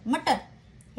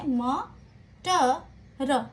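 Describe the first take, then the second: First: The syllables run together without breaks. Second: Each syllable is said apart with breaks. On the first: It becomes a single word. The speaker calls it right. "एक साथ पढ़े तो यह एक शब्द बन जाता है" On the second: It does not make sense as a word. The speaker calls it wrong. "इन्हें अलग अलग पढ़े तो कुछ नहीं समझ में आता"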